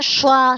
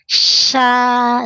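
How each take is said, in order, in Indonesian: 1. Suku kata "sya" diucapkan dengan bibir maju dan membulat. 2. Suku kata "sya" diucapkan dengan bibir melebar, tersenyum. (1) "Tidak boleh monyong ya" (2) "Senyum saja"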